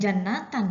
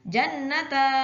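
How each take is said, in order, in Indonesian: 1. Kata ini berakhir dengan bunyi 'atan' penuh. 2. Kata ini berakhir dengan bunyi 'ata' yang terbuka. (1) "Itu dibacanya bukan jannatan" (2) "bukan pula dibaca jannata. Tidak seperti itu"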